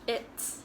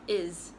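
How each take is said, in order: First: A T sound is heard before the S. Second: No T sound is heard before the S. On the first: The speaker calls it right. "you're not reading the T before the S. So it's" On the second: The speaker calls it wrong. "not is"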